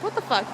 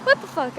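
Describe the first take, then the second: First: Said in the usual way. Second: Louder and higher what the fuck; exasperated. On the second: Real, not acted. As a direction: throw up your hands in disbelief. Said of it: "I was like, What the fuck?".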